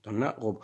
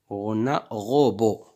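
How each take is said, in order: First: Said in the usual way. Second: Slow and louder, each word spelled out; deliberate teacher read-aloud; slow careful reading. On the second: Shown as a demonstration. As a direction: sound it out for beginners.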